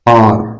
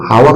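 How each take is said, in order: First: The word begins with a vowel sound. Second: The word begins with an h sound. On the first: The speaker calls it right. "इसको बोलते हैं आर। ... एच silent होता है" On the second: The speaker calls it wrong. "इसको हावर नहीं बोलते हैं"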